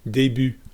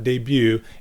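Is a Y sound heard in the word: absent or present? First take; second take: absent; present. First: It is said with no Y sound. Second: It is said with an English-like Y sound. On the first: The speaker calls it right. "there's no Y sound" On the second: The speaker calls it wrong. "it's not debut. Like in English"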